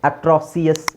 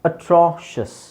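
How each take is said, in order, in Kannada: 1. ಕೊನೆಯ ಭಾಗ ಎರಡು ಉಚ್ಚಾರಾಂಶ, ಉದಾಹರಣೆಗೆ see-us. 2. ಕೊನೆಯ ಭಾಗ ಒಂದು ಉಚ್ಚಾರಾಂಶ, ಉದಾಹರಣೆಗೆ shus. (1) "ಅಟ್ರಾಸಿಯಸ್ ಆಗುತ್ತಾ? ಇಲ್ಲ" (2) "ನಾವು ಶಸ್"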